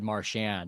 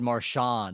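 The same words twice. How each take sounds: First: The name is said in a plain, everyday way. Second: The name is said in a fancy, French-like way. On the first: It marks the speaker as an ordinary person. "like a like a normie" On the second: It marks the speaker as upper class. "you're so classy. You said Marchand"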